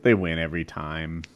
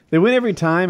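First: Said in the usual way. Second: Every pushed high and loud; stress on every. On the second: Shown as a demonstration. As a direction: hit every hard.

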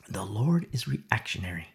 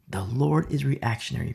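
First: Low unvoiced whisper. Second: Said in the usual way. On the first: Real, not acted. Preacher whispering a key point to the congregation. Whispered then repeated aloud.

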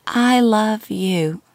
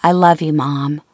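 First: Put-on slow, faint, dying old woman; frail old mother. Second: Said in the usual way. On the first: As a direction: breathe it out weakly, very slowly.

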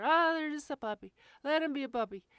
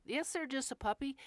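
First: High, loud, mock-indulgent owner voice; mocking other owners. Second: Said in the usual way. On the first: Trainer mocking owners who excuse their puppy, high loud mock-indulgent. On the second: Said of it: "I, no".

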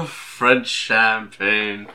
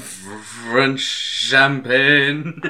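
First: Slow, grand French champagne; Orson Welles voice. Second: Very slow, drawn-out champagne; Orson Welles voice. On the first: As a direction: savor each word like the ad. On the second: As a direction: stretch every syllable grandly. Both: Retold or imitated.

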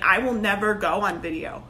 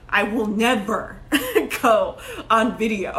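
First: Said in the usual way. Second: Slow, stressed never, breaking into laughter; laughing insistence. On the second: Retold or imitated. Telling her first business coach she'll never film, laughing. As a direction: drag it out and crack up midway. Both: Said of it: "I remember telling my first business coach".

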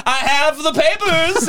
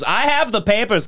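First: Much higher, slow, triumphant imitation; old man flashing the dog papers in the kitchen; proud old man. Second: Said in the usual way. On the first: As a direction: hold the papers up like an FBI agent. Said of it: "He'd be like". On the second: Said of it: "He goes".

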